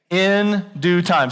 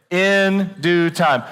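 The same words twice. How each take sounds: First: Each word drawn out slowly; In due time, said slow and deliberate; slow emphatic phrase. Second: In due time, drawn out with the crowd; slow call and response. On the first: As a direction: congregation call-and-response pace. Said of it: "Say 'em with me". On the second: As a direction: lead the room slowly through In due time. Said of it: "one quarter of you said it". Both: Shown as a demonstration.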